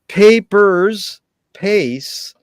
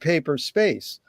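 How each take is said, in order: First: The s is joined to the first word. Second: The s is joined to the second word. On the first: "it could be pronounced papers, pace" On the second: "I pronounced it paper space"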